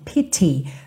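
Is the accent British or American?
British. It has a British accent with a crisp T.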